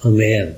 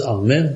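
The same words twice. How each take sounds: First: "Amen" said the approved way, lower and falling; correct pronunciation. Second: "Amen" said the rejected way, voice left up; wrong pronunciation. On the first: Preacher correcting how it is said, correct falling "Amen". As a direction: give "Amen" as the proper form, pitch dropping to a close. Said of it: "men det skal uttales". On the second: Preacher showing listeners how not to say it, wrong pronunciation of "Amen". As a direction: say "Amen" as the form to avoid. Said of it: "Det skal ikke uttales". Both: Shown as a demonstration.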